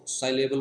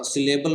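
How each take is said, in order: First: साइलेबल with "sigh" at the start; second pronunciation variant. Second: सिलेबल with a short "si" at the start; first pronunciation variant. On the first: Teacher offering students either pronunciation, साइलेबल opening on "sigh". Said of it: "साइलेबल बोल लो". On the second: Teacher offering students either pronunciation, सिलेबल with short "si". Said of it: "सिलेबल बोल लो". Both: Shown as a demonstration.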